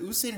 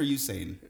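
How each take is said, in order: First: Usain with an opening OO sound; first pronunciation. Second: Usain with an opening YOU sound; alternative pronunciation. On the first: Unsure of the sprinter's name, Usain begun with OO. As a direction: say Usain as "oo-SAIN". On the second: Unsure of the sprinter's name, Usain begun with YOU. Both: Shown as a demonstration. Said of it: "Is it Usain or Usain?".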